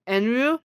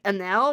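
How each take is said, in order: First: The name ends in a vowel sound. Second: The name ends in an L sound. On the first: The speaker calls it right. "you pronounce the name as Enru" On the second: The speaker calls it wrong. "you pronounce it like Enel, which is not right"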